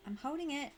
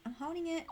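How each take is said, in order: Both takes have the same delivery.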